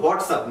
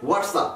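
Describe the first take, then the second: First: WHATSAPP with a breathed 'h' start, like 'hots-app'; wrong pronunciation. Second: WHATSAPP with a w start, like 'wats-ap'; correct pronunciation. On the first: Teacher warns learners off this form, h-sound start. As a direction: start 'WhatsApp' on h instead of w. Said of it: "এটা কিন্তু WhatsApp না". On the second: Teacher corrects learners to native form, w-sound start. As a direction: open 'WhatsApp' on a slow, rounded w. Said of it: "এটা হচ্ছে WhatsApp". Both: Shown as a demonstration.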